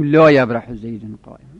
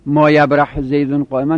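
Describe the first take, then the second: First: لا stressed, tune rising at the end; لا یبرح زیدون قائما, لا stressed; right form with لا. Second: ما stressed, sentence falling at the end; ما یبرح زیدون قائما, ما stressed and set apart; wrong form with ما. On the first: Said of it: "بگیم". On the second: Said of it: "نگیم". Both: Shown as a demonstration.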